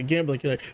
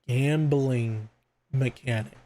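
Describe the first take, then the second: First: The phrase is said at normal speed. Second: The phrase is said slowly and deliberately.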